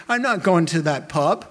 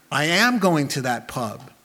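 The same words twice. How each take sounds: First: "not" lifted and held with a rising tune; stress on not. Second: "am" pressed hard and flat; stress on am. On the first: Preacher voicing the right choice, "not" stressed. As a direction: lean on "not" in "I'm not going to that pub". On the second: Preacher voicing the real inclination, "am" stressed. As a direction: land firmly on "am" in "I am going to that pub". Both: Shown as a demonstration. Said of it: "Oh, no, rather".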